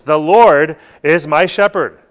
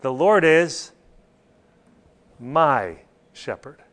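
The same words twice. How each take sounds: First: "Lord" held long and loud, "my shepherd" lighter; a big sustained "Lord", then ease off; stress on LORD. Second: Long pause, then a slow, lower "my"; "my" isolated, slow and weighty; stress on MY. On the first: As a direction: put all the weight on "Lord". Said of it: "The Lord is the emphasis". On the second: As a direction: set "my" apart and draw it out. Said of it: "It's personal". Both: Shown as a demonstration.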